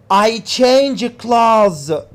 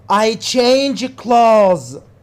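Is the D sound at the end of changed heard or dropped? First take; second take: dropped; dropped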